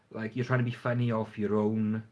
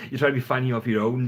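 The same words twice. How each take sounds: First: Said in the usual way. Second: Repeats it again through a real laugh, quicker and louder; chuckles the line back out at himself. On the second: Real, not acted. Vlogger laughing at his own point on funny videos.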